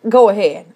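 The phrase sounds tense and threatening. The speaker is daring the listener to do it. "It means go ahead. I dare you. It's a dare"

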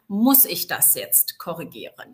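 The stress is on the word muss. Is it really necessary to correct this? "mit der Betonung auf muss"

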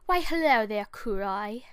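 It is said in an attempted British accent. "I'm gonna try with a British accent"

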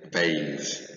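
It is said with an American pronunciation.

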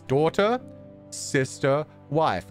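Each word is set apart by a pause. They are three separate people. The speaker calls it right. "Separately, yes"

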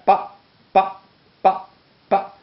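Each syllable is short and cut off. "articulación breve"

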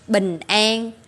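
It is said with a Vietnamese accent. "Mình Việt Nam mình đọc là an"

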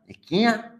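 The word starts with a k sound.

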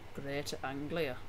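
It is said in a Northern English/Scottish accent. "I did a Northern English / Scottish accent whilst saying Greater Anglia"

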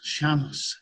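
It is said the Uruguayan way, with an sh sound.

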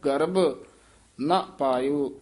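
There is a short pause after the first word. The speaker calls it right. "ਮਨਮੁਖ ਗਰਭ ਇੱਥੇ ਠਮਕ ਲਾਉਣੀ ਹੈ"

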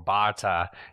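The name is said in an Australian accent.

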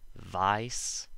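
The vowel starts from an open ah sound. "in the UK they would use the regular long I sound"

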